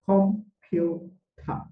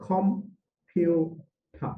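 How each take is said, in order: No difference in how they are said.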